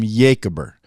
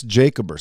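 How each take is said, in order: First: Jacober begun with a Y sound; "Jacober" starting like "yay"; Y pronunciation. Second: Said in the usual way. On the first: Shown as a demonstration. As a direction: turn the J in Jacober into a Y. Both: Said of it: "Some people call him".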